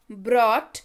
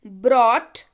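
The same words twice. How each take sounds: The two takes are said the same way.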